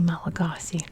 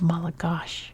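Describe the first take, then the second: First: It is said with an American English pronunciation. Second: It is said with a Malagasy pronunciation. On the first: "We say Malagasy" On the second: "the language is called Malagash"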